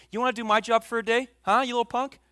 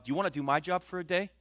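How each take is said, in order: First: Higher, louder and fast parental taunt; a parent scolding their kid, lightly hammed-up; mock scolding parent. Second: Said in the usual way. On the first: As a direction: snap it like an annoyed dad. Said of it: "how many parents have you said that to your kids". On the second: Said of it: "He says".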